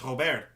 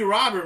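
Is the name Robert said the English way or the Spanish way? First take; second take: Spanish; English. First: The name is said with Spanish pronunciation. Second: The name is said with English pronunciation. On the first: The name follows the player's Spanish-speaking background. "So like I would think that saying his name would be Luis Robert" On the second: The name follows the usual American pronunciation. "but you may be right. It just may be Robert"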